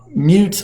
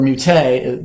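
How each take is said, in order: First: It is said like the English word mute. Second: It is said with a French pronunciation. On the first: Unable to speak. "it's spelled just like mute, like I can't talk" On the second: Sterilized unfermented juice used for sweetening. "the French word"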